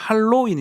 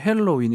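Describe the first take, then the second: First: The first vowel is an open a sound. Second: The first vowel is an e sound. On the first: This is the older, familiar local form. "우리는 할로윈 이렇게 했는데" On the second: This is the newer, more English-like form. "헬로윈 이렇게 좀 영어 발음이 좋아진 것 같더라고요"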